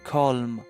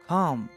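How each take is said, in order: First: The L sound is pronounced in the word. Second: The L sound is silent in the word. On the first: The speaker calls it wrong. "Don't say calm" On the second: The speaker calls it right. "The word L is silent"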